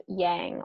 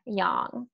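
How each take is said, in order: First: "yang" said with the flat A of "hang"; YANG with front A. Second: "yang" said as "yahng", with a back open A. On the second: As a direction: say "yang" to rhyme with "song". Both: Shown as a demonstration. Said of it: "yang or yang".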